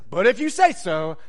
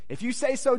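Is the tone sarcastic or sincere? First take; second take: sarcastic; sincere. First: The phrase sounds doubtful and mocking. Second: The phrase sounds earnest and trusting. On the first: The speaker doubts it will work but goes along. "this is where the sarcasm comes in" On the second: The speaker truly trusts and has faith. "oh, Peter, what a good disciple"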